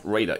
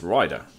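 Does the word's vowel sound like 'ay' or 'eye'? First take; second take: ay; eye. First: The vowel sounds like 'ay' as in 'raid'. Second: The vowel sounds like 'eye' as in 'ride'. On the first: The speaker calls it wrong. "It's not Raider" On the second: The speaker calls it right. "it's Rider"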